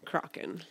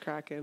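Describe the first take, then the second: First: It is said in a pirate-sounding way. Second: It is said in the standard way. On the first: The speaker calls it wrong. "I got used to saying Kraken. It just sounds more pirate" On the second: The speaker calls it right. "But it's Kraken"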